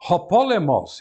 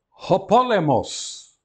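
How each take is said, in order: First: Said in the usual way. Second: Ho POlemos drawn out slowly; teacher models the Greek word. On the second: Shown as a demonstration. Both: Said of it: "Agora a que se segue".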